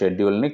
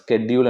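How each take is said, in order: First: The word begins with an 'sh' sound. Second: The word begins with an 'sk' sound.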